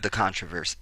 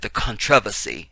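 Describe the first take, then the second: First: Said in the usual way. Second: "controversy" in a put-on British accent; fake British accent. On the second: Host correcting himself while reading the news, fake British accent. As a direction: stress the TROV of "controversy", mock British. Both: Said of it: "had to get my fake British accent in there".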